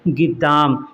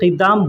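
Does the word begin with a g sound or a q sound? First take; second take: g; q. First: It begins with a g sound. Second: It begins with a deep back q sound. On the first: This is the everyday spoken form. "बोलेंगे उसको बोलचाल की ज़ुबान में गिद्दाम" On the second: This is the written form. "Urdu में या अरबी में लिखेंगे क़िद्दाम"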